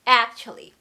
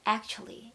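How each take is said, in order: First: The first vowel is wide open and forcefully stressed. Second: The first vowel is weak and not pushed out. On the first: The speaker calls it right. "아 크게 벌리고 거기에 강세가 들어가니까 훅 하고 쏘셔야 돼요" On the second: The speaker calls it wrong. "이런 느낌이 아니라"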